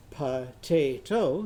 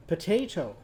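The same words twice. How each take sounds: First: "Potato" slowly split into po-ta-to; syllable by syllable. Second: Said in the usual way. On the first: Shown as a demonstration. Teacher counting syllables for children, "Potato" slow and split. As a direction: break "Potato" into three separate, stretched beats. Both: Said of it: "How many syllables in potato?".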